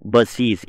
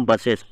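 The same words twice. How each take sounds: First: "బస్సీస్" with a long ee in the ending; correct plural pronunciation. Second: "బస్సెస్" with a short e in the ending; common wrong pronunciation. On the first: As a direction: end "బస్సీస్" on -eez, not -es. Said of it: "ఇట్లా పలకాలి". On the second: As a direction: end "బస్సెస్" on -es, not -eez. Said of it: "అది తప్పు". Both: Shown as a demonstration.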